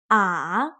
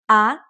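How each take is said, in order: First: The pitch dips down and then rises. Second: The pitch rises from middle to high. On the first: "The third tone, ah, it goes down and then up again" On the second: "The second tone, ah, it goes up like up"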